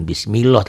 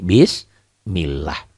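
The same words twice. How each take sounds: First: Bismillah ending in a dark O, "bismiloh"; wrong thick Allah. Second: Bismillah slow, ending in a thin A; correct thin Allah. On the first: Teacher showing the wrong reading of bismillah, dark O. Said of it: "tidak berbunyi O". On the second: Teacher showing the right thin bismillah, slow and clear. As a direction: draw out bismillah with a clean A. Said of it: "Berbunyi A". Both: Shown as a demonstration.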